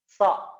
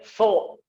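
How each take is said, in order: First: The syllable is said light and thin. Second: The syllable is said heavy and thickened. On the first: The speaker calls it right. "ujung lidahnya turun ke gigi seri bawah" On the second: The speaker calls it wrong. "Tidak boleh so, so, ditebal-tebalkan"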